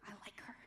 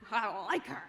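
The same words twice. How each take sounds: First: Softer fond aside; quiet aside. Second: Said through a real laugh. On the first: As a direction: drop it to a soft confession. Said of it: "She's very sassy". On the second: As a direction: laugh out the fond admission. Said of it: "she's just really sassy". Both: Real, not acted.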